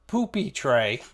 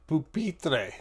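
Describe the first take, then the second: First: It sounds like the English words 'poopy tray'. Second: It is said as one French-sounding word. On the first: The speaker calls it wrong. "not poopy tray" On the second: The speaker calls it right. "It's pupitre"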